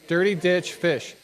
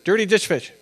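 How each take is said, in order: First: It is said at a normal pace. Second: It is said fast.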